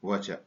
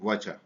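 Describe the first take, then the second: First: The words blend into one short contracted form. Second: The same.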